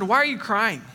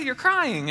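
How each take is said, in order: First: Blunt retold question to his wife; retold, insensitive husband asking; unsympathetic question. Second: High-pitched sympathetic retelling; imitated sympathy in a higher voice; real sympathetic. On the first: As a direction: ask why, without the sympathy. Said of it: "I didn't say it like that". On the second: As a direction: play the caring husband, pitched up. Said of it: "I said, real sympathetic".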